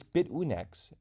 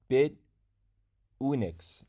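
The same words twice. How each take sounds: First: Said in the usual way. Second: "Bit ... Unix", split by a clear pause; slowed-down pronunciation. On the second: Shown as a demonstration. Streamer repeating the name for viewers after rushing it, slowed-down pronunciation. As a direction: say "Bit", stop, then "Unix". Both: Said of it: "I say it so fast".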